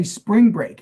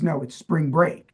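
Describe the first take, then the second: First: "spring break" stressed on SPRING, pitched high; SPRING break, first word punched; misplaced stress. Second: "spring break" with the weight on BREAK; spring BREAK, second word stressed; corrected stress. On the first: Shown as a demonstration. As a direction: hit SPRING in "spring break" and let "break" fall. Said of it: "putting the emphasis on the wrong syllables". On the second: Retold or imitated. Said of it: "and he says".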